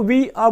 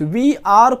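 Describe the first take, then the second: First: The final r sound is soft, nearly dropped. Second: The final r sound is pronounced strongly. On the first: The speaker calls it right. "रा आप हल्का सा बोल सकते हैं" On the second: The speaker calls it wrong. "We आर को we आर बोलिएगा"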